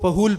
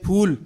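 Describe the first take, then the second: First: The word is split into two syllables. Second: The word is said as one syllable. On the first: The speaker calls it wrong. "उसको फहूल पढ़ते हैं" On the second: The speaker calls it right. "जैसे फूल"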